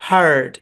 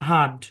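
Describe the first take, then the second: First: American accent, the r sound is pronounced. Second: British accent, the r sound is silent. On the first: "American ইংলিশে এই শব্দের উচ্চারণ হার্ড" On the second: "British ইংলিশে বলা হার্ড, কোনো আর হবে না"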